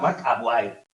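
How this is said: The name is said with an American accent. "los americanos se llamaban Mark Aguirre"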